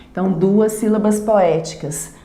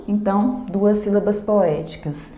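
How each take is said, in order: Both takes have the same delivery.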